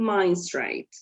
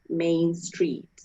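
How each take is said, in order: First: Main has an 'eye' vowel, street an 'ay' vowel. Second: Main has an 'ay' vowel, street an 'ee' vowel. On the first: "A is going to be pronounced I, and E is going to be pronounced A" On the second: "Main will be, will be pronounced A with A and street with E"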